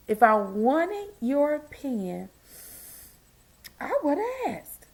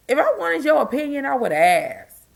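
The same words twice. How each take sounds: First: Mock sweet. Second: Firm, clipped retort; sassy retort. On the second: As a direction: spell it out, no nonsense. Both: Shown as a demonstration. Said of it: "I even got a shirt that said it".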